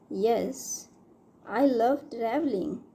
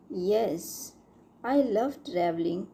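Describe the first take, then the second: No difference in how they are said.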